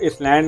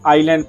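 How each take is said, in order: First: An s sound is pronounced in the middle. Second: No s sound is pronounced in the middle. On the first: The reader does not know the s is silent. The speaker calls it wrong. "इसको इसलैंड नहीं" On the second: The reader knows the s is silent. The speaker calls it right. "बल्कि आइलैंड पढ़ना है"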